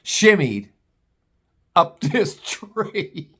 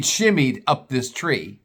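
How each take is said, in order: First: "Shimmied", pause, then "up this tree" stretched very slowly; drawn-out emphasis. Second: Said in the usual way. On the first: Shown as a demonstration. Comic repeats how dad climbed, "Shimmied ... up this tree" slowly drawn out. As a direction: savor "Shimmied" alone, then drag out "up this tree".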